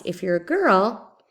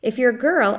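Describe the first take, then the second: First: Put-on slow, louder If you're a girl, then a long pause. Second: Put-on girl lifted and loud, then a firm break; clear pause after girl. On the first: Teacher repeats the example slowly, stressing the comma pause. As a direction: stretch the phrase and stop at the comma. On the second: Teacher modelling the comma pause for students, pausing after girl. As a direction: hold a beat after girl. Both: Shown as a demonstration. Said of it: "You hear the pause".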